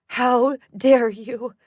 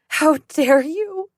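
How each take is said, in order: First: Slow, loud outrage rising on dare; furious mother. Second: Slow, loud and higher, how hit hardest; the second time even angrier; furious mother. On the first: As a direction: spit out each word in rage. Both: Acted.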